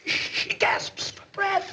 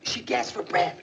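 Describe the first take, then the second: First: Slow, higher, breathless whisper; hammed-up whisper. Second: Unvoiced, urgent breathy telling; dramatic gasp. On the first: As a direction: play the suffocating girl. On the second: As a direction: whisper it like a thriller. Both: Dramatizing a fire scene.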